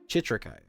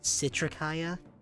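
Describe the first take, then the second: First: The name begins with a ch sound. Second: The name begins with an s sound. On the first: "I've been calling them Chitrikaya for three months" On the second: "like citrus"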